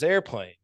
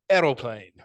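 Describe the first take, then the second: First: It is said in a plain American accent. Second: It is said in a thick Polish accent.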